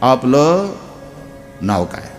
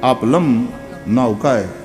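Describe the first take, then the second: First: The first word ends without an m sound. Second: The first word ends with an m sound. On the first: The speaker calls it right. "નહીં નહીં એવું નહીં બોલો" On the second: The speaker calls it wrong. "લની માથે મીંડું એટલે લમ"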